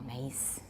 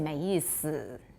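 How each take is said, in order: First: The middle syllable's vowel is whispered, voiceless. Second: The middle syllable's vowel is fully voiced. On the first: "It's often a voiceless vowel" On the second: "You don't always say 没意思. You don't always voice it"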